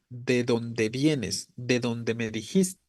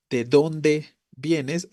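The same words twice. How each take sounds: First: Slow, softer, "donde" flat and unstressed; "donde" said plainly as a connector, softer; flat intonation. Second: Slow, "dónde" stressed strongly; "dónde" said strongly and slowly. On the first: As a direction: keep it level, no push on "donde". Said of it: "Es más plana la entonación". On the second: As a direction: lean hard on "dónde" as a direct question. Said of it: "entonces es diferente". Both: Shown as a demonstration.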